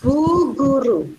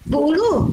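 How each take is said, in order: First: The g and r sounds are pronounced. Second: The g and r sounds are dropped. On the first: The speaker calls it right. "mengucapkan Bu Guru dengan benar" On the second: The speaker calls it wrong. "masih belum jelas kata-katanya"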